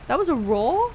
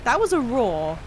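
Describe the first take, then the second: First: "That was a roar?" with a rising, questioning tune; doubtful question. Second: Said in the usual way. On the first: Real, not acted. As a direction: ask "That was a roar?" in disbelief, pitch up at the end. Repeats line as a question.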